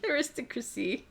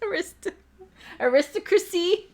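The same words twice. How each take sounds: First: Aristocracy murmured softly in a changed voice; quiet aside. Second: Aristocracy in a high put-on voice; high silly voice. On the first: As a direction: drop Aristocracy to a soft aside. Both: Shown as a demonstration.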